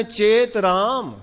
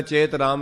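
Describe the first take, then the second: First: ਚੇਤ ਰਾਮ slow and drawn out, with a held pause after it; ਚੇਤ ਰਾਮ said slowly as its own phrase; correct pause. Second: ਚੇਤ ਰਾਮ run quickly into the next words with no pause; ਚੇਤ ਰਾਮ tossed off quickly, not set apart; wrong pause. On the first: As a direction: let ਚੇਤ ਰਾਮ stand apart as a slow, weighty call. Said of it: "ਜੇ ਪਾਠ ਵਿਸ਼ਰਾਮ ਲਾ ਕੇ ਠੀਕ ਨਾ ਹੋਇਆ". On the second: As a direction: rush ਚੇਤ ਰਾਮ on as if the line carries straight on. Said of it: "ਫਿਰ ਤੇ ਹੋਏਗਾ". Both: Shown as a demonstration.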